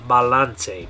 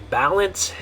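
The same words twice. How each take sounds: First: It is said with a Spanish pronunciation. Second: It is said with an English pronunciation. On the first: "in Spanish" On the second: "in English you'd say"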